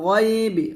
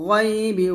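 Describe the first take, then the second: No difference in how they are said.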